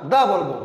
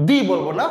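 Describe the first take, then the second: First: দা said as "duh" with an open a vowel; the right way, with da. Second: দি said as "dee" with a long i vowel; the wrong way, with di. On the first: Teacher to students, giving the correct form: দা said "duh". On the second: Teacher to students, showing the rejected form: দি said "dee". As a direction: say দি with an ee sound, the way not to say it here. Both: Shown as a demonstration.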